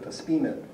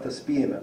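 First: Da spime with a short, clipped i in spime; correct pronunciation. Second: Da spime with a drawn-out i in spime; wrong pronunciation. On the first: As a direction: say da spime the right way, i kept short. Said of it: "but da spime". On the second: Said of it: "not da spime". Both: Shown as a demonstration.

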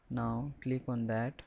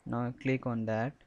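The two takes are said the same way.

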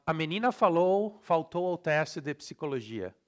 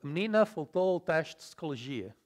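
First: Brazilian reading, syllables all sounded; Brazilian Portuguese accent. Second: Vowels dropped, European Portuguese style; European Portuguese accent. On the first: Teacher reading the next sample, Brazilian Portuguese accent. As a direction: read it Brazilian-style with full vowels. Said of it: "in Brazilian". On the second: Teacher showing lost sounds, reduced European Portuguese accent. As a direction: swallow unstressed syllables as in Portugal. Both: Shown as a demonstration.

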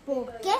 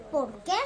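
The two takes are said the same way.

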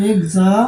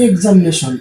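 First: examination in four parts with long pauses; এক্সা, মি, নে, শন as separate beats in examination; split into syllables. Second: Said in the usual way. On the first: Shown as a demonstration. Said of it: "চারবার ভেঙে যেগুলো উচ্চারণ করা". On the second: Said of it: "চারবার ভেঙে উচ্চারণ করা যায়".

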